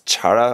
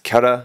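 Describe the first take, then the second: First: The word begins with a ch sound. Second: The word begins with a k sound. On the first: The speaker calls it wrong. "not Chara" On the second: The speaker calls it right. "this is pronounced Kara"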